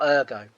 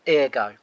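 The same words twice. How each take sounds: First: Ergo said as "UR-go"; first syllable of ergo rhymes with "fur"; alternative pronunciation. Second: Ergo said as "EAR-go"; first syllable of ergo rhymes with "beer"; variant pronunciation. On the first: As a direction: open ergo with an "er" sound. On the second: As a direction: open ergo with an "ear" sound. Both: Shown as a demonstration. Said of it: "depending on where you're from and how you pronounce it".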